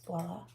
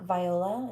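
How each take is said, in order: First: It begins 'vwah' in the French way. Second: It begins 'vee' and sounds like 'viola'. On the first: The speaker calls it right. "It's not, it's voila. It's a French word" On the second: The speaker calls it wrong. "I read it um, like viola"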